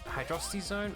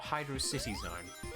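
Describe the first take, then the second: First: Hydrocity is run together as one word. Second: Hydro and City are said as separate words. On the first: "It's either pronounced Hydrocity Zone" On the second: "or Hydro City Zone"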